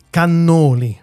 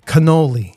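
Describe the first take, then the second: First: "cannoli" the Italian way, kah-NOH-lee, open a; "cannoli" with a clear Italian a; "cannoli" said correctly in Italian; Italian pronunciation. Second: "cannoli" said the American way, kuh-NOH-lee; "cannoli" with an English flat a and long o; American pronunciation. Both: Shown as a demonstration. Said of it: "how to pronounce it correctly".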